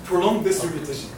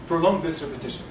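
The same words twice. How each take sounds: The two takes are said the same way.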